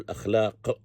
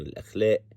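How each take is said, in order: First: The last consonant is a deep q sound. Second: The last consonant is a glottal stop. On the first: "بالقاف" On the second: "بالهمزة بالنبرة"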